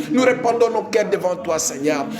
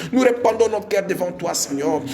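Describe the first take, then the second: The two takes are said the same way.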